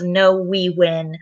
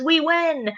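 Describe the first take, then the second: First: Said in the usual way. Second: Much higher-pitched triumphant cry; triumphant Daddy Pig. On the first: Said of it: "Peppa Pig says". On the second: Acted. Daddy Pig declaring victory to Peppa in a tidying race, high and triumphant. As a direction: claim the win, pitched way up. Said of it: "Daddy Pig says".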